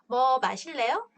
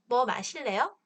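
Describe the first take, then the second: No difference in how they are said.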